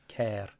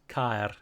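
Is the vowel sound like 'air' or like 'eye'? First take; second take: air; eye. First: The vowel sounds like 'air'. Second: The vowel sounds like 'eye'. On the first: The speaker calls it wrong. "and not Care" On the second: The speaker calls it right. "pronounced, as I've already said, as Caer"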